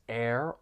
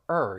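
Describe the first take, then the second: First: The word sounds like air. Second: The word sounds like her, without the h. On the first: "pronounced as air" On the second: "or er"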